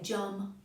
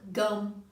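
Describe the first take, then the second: First: The word begins with a j sound. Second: The word begins with a hard g sound. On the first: The speaker calls it wrong. "You wouldn't say jum" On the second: The speaker calls it right. "Think of gum"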